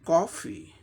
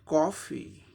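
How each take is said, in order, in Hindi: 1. पहला स्वर गोल होठों वाली 'aw' आवाज़ है। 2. पहला स्वर गोल होठों वाली 'aw' आवाज़ है।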